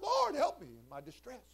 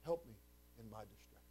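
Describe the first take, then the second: First: High-pitched plea to the Lord; acted cry for help. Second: Soft prayer dropping low and very quiet; hushed plea. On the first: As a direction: call out to God for help. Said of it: "I called out". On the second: Acted. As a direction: let the plea sink away softly. Hushed repeat of the cried prayer.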